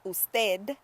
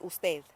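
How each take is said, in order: First: It is said without a th sound. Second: It is said with a th sound. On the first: "instead of saying" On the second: "I learned to speak with a th"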